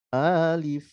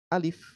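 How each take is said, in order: First: The first vowel is drawn out long. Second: The first vowel is kept short. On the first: The speaker calls it wrong. "jangan dipanjang, jangan dibaca alif" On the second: The speaker calls it right. "A-nya nggak panjang"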